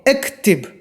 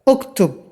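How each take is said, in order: First: Both vowels are 'i' sounds, colloquial form. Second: Both vowels are 'u' sounds, classical form. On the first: This is the everyday spoken dialect form. "यहाँ जो बोलचाल की भाषा में वहाँ इक्तिब बोला जाता है" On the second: This is the formal standard Arabic form. "अरबी फुसहा में उक्तुब बोला जाता है"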